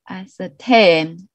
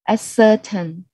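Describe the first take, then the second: First: The stress is on the last syllable. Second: The stress is not on the last syllable. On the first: The speaker calls it right. "the stress is on the third syllable" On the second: The speaker calls it wrong. "I really made a mistake"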